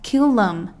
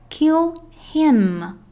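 First: The word 'him' is said in weakened form. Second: The word 'him' is said in full form.

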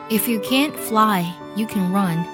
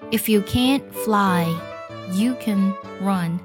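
First: It is read at a normal speed. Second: It is read at a slow speed.

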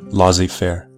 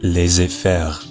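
First: It is said with an anglicized English pronunciation. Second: It is said with a native French pronunciation.

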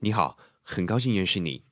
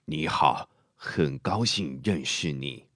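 First: A medium-pitched, medium-paced mature voice. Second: A low, quiet, drawn-out older voice.

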